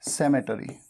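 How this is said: It is said in an American accent. "US, American pronunciation है"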